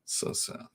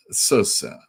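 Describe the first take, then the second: First: Breathy whispered "So sad" in mock pity; whispered mock sadness. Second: Said in the usual way. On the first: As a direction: whisper it like fake sympathy, barely audible. Mock pity for millionaire Batman.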